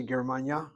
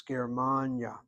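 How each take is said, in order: First: "Germania" as ger-man-YA, stress at the end; wrong stress demo. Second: "Germania" as ger-MAAN-ya, MAN lengthened; right stress demo. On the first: Teacher showing what we don't say, "Germania" end-stressed. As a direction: push the accent onto YA in "Germania". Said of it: "So we don't say Germania". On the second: Teacher giving the correct form, "Germania" stressed on MAN. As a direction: stretch the middle of "Germania", falling after. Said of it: "it's Germania". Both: Shown as a demonstration.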